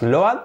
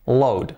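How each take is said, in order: First: "load" said as lo-at, two vowels; Spanish-style reading of "load", o and a separate; wrong pronunciation. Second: Said in the usual way. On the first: Shown as a demonstration. Teacher warning learners off this reading, mispronounced. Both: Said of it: "no digáis más load".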